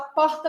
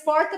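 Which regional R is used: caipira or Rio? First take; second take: Rio; caipira. First: The R is said in the Rio way. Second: The R is said in the caipira way. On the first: "do Rio de Janeiro" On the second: "é provável que você fale o R caipira"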